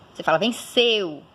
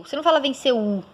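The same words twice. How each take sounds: First: Venceu with a gliding eu ending; teacher shows the correct form; right pronunciation. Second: Venceu with a separate full U at the end; teacher demos the wrong version; wrong pronunciation. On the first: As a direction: glide the eu of venceu smoothly. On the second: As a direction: tack a full U onto venceu. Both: Shown as a demonstration.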